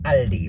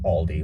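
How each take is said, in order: First: The name is pronounced the German way. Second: The name is pronounced the American English way.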